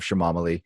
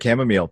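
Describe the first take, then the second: First: The word is said with extra added syllables. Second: The word is said with its usual syllables. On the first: "mispronouncing it" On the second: "instead of chamomile"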